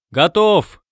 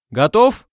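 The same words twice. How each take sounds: First: High, falling answering shout; hollow, echoing-style answer, falling at the end; booming reply. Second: High, rising call; raised-pitch hail, rising at the end; shouted question. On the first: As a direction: call back from inside, resonantly. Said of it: "гулко откликнулся Пишта". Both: A narrator's reading.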